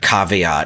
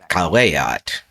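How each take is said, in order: First: The middle consonant is a V sound. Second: The middle consonant is a W sound. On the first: This is the usual modern reading. The speaker calls it wrong. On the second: This is how the ancient language sounded. The speaker calls it right.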